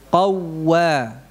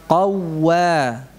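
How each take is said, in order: The two takes are said the same way.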